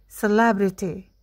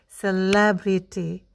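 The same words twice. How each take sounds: First: The word is said fast. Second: The word is said slowly.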